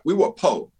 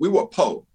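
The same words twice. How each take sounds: First: The word poor is clipped to 'po'. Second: The word poor is clipped to 'po'.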